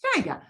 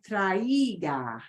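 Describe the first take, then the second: First: TRAIGA as two syllables, ai blended; "Traiga" with one gliding first syllable; correct traiga. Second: "traiga" split as tra-EE-ga; drawn-out "traiga" with a separate stressed EE; mispronounced traiga. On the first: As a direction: say "Traiga" quickly as TRY-gah, vowels run together. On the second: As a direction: break "traiga" into three syllables, punching the i. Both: Shown as a demonstration. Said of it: "try not to pronounce it like".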